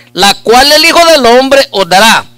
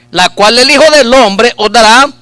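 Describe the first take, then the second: No difference in how they are said.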